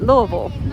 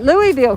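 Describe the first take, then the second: First: The name is pronounced the local way. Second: The name is pronounced the outsider way. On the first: This is how people living there say it. The speaker calls it right. "the people that live in Louisville call it" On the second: This is how newcomers from Virginia said it. The speaker calls it wrong. "we always called it Louisville"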